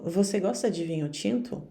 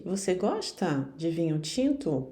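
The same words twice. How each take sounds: First: No questioning lift, as if affirming; statement intonation. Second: Clearly asking "Você gosta de vinho tinto"; questioning tune on "Você gosta de vinho tinto"; question intonation. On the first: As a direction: say "Você gosta de vinho tinto" like a statement of fact. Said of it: "pode parecer que eu estou afirmando". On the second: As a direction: lift "gosta", making it a yes-or-no question. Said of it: "Em vez de". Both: Shown as a demonstration.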